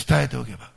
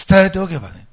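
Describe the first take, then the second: First: Said in the usual way. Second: Loud, insistent repeat; emphatic. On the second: Shown as a demonstration. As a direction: drive the point home, louder. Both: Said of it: "もう一遍言いますよ。".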